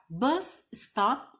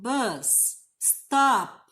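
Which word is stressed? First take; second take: bus; stop. First: The stress falls on the word bus. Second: The stress falls on the word stop. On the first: It names the place where the bus stops. "você está falando de parada de ônibus" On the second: It is an order telling the bus to stop. "então você pode estar dando uma ordem"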